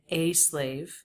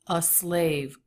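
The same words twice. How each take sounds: First: The article 'a' has a full, unreduced vowel. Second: The article 'a' is reduced to a schwa. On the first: "He doesn't say a slave" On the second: "He does make this a schwa"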